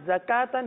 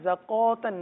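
First: The kaf is light with a clear a. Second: The kaf is heavy with a rounded vowel. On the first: The speaker calls it right. "کاف کو باریک پڑھیں گے" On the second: The speaker calls it wrong. "زکوتن نہیں ہے"

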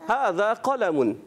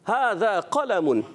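Both takes have the same delivery.

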